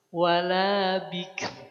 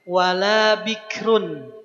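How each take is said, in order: First: The last word stops on a light, bare r. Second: The last word ends with a voiced -run.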